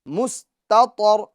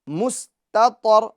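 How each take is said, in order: Both takes have the same delivery.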